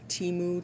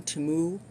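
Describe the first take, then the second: First: Temu met een lange ie, "tie-moe"; Temu said "tee-moo". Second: Temu met een doffe e en stijgend, "tuh-moe?"; Temu said "tuh-moo". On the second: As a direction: zeg Temu vragend als "tuh-moe". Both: Shown as a demonstration. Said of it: "like, Shein or Temu".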